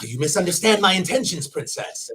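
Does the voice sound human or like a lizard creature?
human. It is said in a normal human voice. "human version"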